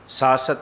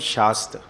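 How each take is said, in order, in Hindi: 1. इस शब्द की शुरुआत साधारण 's' ध्वनि से होती है। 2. इस शब्द की शुरुआत 'sh' ध्वनि से होती है। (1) "ਸਾਤ ਸੱਤ ਨਹੀਂ ਹੈ" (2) "ਬਿੰਦੀ ਲਾ ਕੇ ਪੜ੍ਹੋਗੇ ਤੇ ਅਰਥ ਸਪਸ਼ਟ ਨੇ"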